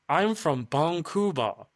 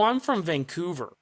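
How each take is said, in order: First: It is said with a Japanese accent. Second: It is said with a normal English accent.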